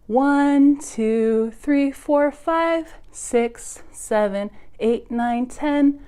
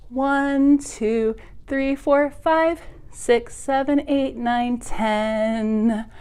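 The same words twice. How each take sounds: The two takes are said the same way.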